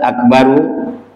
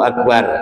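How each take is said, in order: First: The word ends with an added u vowel. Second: The word ends on a bare r sound. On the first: The speaker calls it wrong. "Akbar itu dengan dhammah" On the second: The speaker calls it right. "dengan dimatikan ra"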